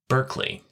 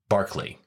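First: The first syllable sounds like 'burk'. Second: The first syllable sounds like 'bark'. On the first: It matches the California town's name. "spelled Berkeley, like the hoity-toity Bay Area, California town" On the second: It matches the basketball player's name. "actually pronounced Berkeley, like the round mound of rebound"

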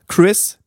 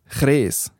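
First: It is said with a careful English pronunciation. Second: It is said the Bernese way, drawn out long.

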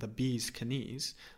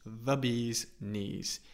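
First: The K at the start of knees is pronounced. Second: The K at the start of knees is silent. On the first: The speaker calls it wrong. "we don't say knees, although I do think that sounds pretty cool" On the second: The speaker calls it right. "but it's just the bee's knees"

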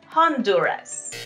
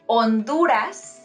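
First: The first letter H is pronounced. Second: The first letter H is silent. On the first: The speaker calls it wrong. "not Honduras" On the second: The speaker calls it right. "so we say Honduras"

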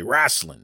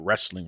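First: It is said casually as 'rasslin'. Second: It is said in the standard way as 'wrestling'. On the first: This is the form used in the show's name. The speaker calls it right. "correct James and say Rasslin" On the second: This is the textbook pronunciation of the word. The speaker calls it wrong. "not wrestling"

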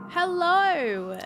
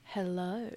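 First: It is said in a plain, ordinary voice. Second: It is said in a low, sultry voice.

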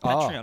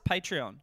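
First: The first syllable does not sound like 'patron'. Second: The first syllable sounds like that of 'patron'. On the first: "You call it Patreon" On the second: "I pronounce it Patreon ... Patreon sounds a bit more like patron"

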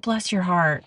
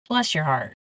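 First: It is said warmly and sincerely. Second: It is said sarcastically and dismissively.

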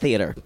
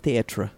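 First: The word is said in a plain, ordinary way. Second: The word is said in an affected, fancy way. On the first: It is just ordinary theater. The speaker calls it wrong. "Not theater" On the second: It is refined, artistic theatre. The speaker calls it right. "has an R-E at the end. Because this is theater"

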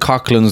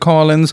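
First: The middle has a throaty 'ch' sound. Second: The middle sound is silent, like 'Collins'. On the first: This is how the spelling makes it look. "It looks like Cochlins the way it's spelled" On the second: This is how locals say it. "Down in Cork, they pronounce it Collins"

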